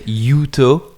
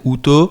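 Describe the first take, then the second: First: The name is pronounced the English way. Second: The name is pronounced the German way. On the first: "the English people says Uto" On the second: "you German people said Uto"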